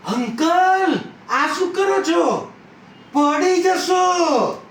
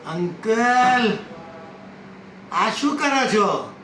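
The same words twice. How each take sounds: First: High, loud cry of alarm; shocked shout to someone about to fall; alarmed warning. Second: Lightly voiced puzzled question, a bit higher; mildly surprised challenge to an elder. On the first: Acted. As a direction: call out urgently, stretching the last word. Acted woman warns he will fall. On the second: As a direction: call out with a drawn-out first word, then ask. Acted woman questions the old man.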